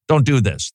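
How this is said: It sounds harsh and reproachful. The listener is being told off. "I was communicating a scold"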